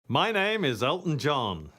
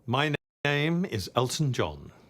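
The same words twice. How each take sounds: First: It is said in a showy, theatrical way. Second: It is said in a subdued, less showy way.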